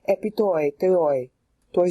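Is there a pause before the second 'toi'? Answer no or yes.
yes. There is a pause before the second toi. The phrase flows easily. The speaker calls it right. "See how well that works?"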